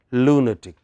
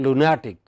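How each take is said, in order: First: "lunatic" as LU-na-tic; stress on LU. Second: "lunatic" as lu-NA-tic; rule-based stress on NA. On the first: Teacher giving the exception's pronunciation, stress on LU. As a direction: stress the first syllable of "lunatic". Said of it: "this is pronounced as". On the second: Teacher showing what rule would give, stress on NA. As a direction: hit the middle syllable of "lunatic". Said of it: "By that rule". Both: Shown as a demonstration.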